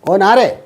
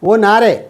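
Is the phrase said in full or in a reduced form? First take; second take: reduced; reduced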